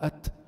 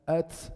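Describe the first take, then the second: First: A light puff of breath follows the t. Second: A hissing s-like sound follows the t. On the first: The speaker calls it right. "شيء بسيط بيطلع" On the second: The speaker calls it wrong. "بعض الناس كتير بيبالغوا ... بزيد سين"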